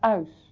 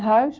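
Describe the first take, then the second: First: The word begins without any h sound. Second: The word begins with an audible h sound. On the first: "die zeggen de H niet" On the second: "Die zeggen geen huis"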